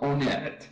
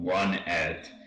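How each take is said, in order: First: The name does not start like 'one'. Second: The name starts like the word 'one'. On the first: The speaker calls it right. "It's called Onett. Official pronunciation" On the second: The speaker calls it wrong. "it's not called One-et"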